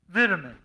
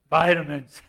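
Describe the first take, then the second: First: It is said with a British pronunciation. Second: It is said with an American pronunciation.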